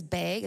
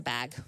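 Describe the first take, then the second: First: "bag" with a long A, like "bayg". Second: Said in the usual way. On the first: Shown as a demonstration. Wife quotes how her husband says it, long-A "bag". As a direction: rhyme "bag" with vague. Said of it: "he says bag". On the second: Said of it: "I'm like, "Right, it's a bag".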